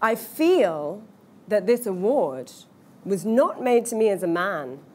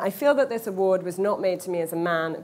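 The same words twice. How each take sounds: First: The sentence is spoken slowly and drawn out. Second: The sentence is spoken at a quick, ordinary pace. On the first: "obviously I'm going really slowly there" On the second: "rather than"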